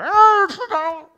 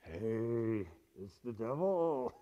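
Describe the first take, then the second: First: It is said very loudly. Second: It is said at a quiet, normal volume.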